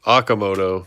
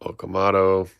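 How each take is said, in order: First: Okamoto said AH-kuh-moh-toh; corrected emphasis. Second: Okamoto said oh-kuh-MAH-toh; misplaced emphasis. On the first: Correcting a player's name, Okamoto stressed at the front. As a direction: hit the first syllable of Okamoto, as AH. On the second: Misreading a player's name, Okamoto stressed as oh-kuh-MAH-toh. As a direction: lean on the third syllable of Okamoto, as MAH. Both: Real, not acted. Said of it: "put the emphasis on the wrong syllable".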